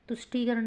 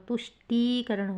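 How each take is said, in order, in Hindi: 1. 'tusht' के बाद का स्वर छोटा है। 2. 'tusht' के बाद का स्वर लंबा है। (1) "नहीं होगा" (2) "लंबा जा रहा है ना, टीकरण यानी बड़ी की मात्रा है"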